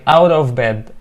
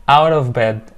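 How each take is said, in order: Both takes have the same delivery.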